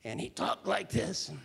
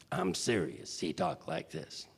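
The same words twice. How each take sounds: First: Said in the usual way. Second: Low, half-whispered Chicago tough guy; Tony Owen voice. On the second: Retold or imitated. Showing the host how Tony from Chicago talked, low and half-whispered. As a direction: drop low and breathe it like a South Side Chicago heavy.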